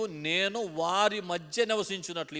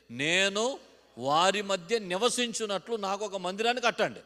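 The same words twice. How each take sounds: First: Slow, deliberate phrase for the congregation to repeat; slow model phrase. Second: Louder, higher, slower repeat of the phrase; loud repeated line. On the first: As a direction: spell it out slowly so they can echo it. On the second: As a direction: belt it out as the congregation repeats. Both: Shown as a demonstration. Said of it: "ఈ మాట చెప్పండి".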